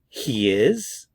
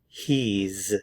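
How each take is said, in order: First: It is said as two full words. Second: It is said as one contracted syllable.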